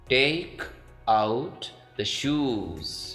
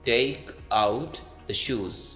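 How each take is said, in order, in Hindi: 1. 'shoes' में स्वर लंबा बोला जाता है। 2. 'shoes' में स्वर छोटा रखा जाता है। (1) "ब्रिटिश में इसको आपने लॉन्ग पढ़ना है" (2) "अमेरिकन में इसको आपने शॉर्ट पढ़ना है"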